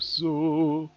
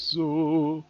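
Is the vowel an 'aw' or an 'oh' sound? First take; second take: oh; oh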